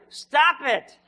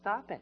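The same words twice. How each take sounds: First: It is said louder and more forcefully. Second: It is said at a normal, softer volume.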